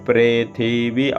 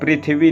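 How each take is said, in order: First: The first syllable is said with a 're' sound. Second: The first syllable is said with an 'ri' sound. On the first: This is the Vedic reading. The speaker calls it right. "नीचे री की मात्रा ... वो रे उच्चारण होता है" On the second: This is the everyday classical Sanskrit reading. The speaker calls it wrong. "पृथ्वी नहीं बोलेंगे"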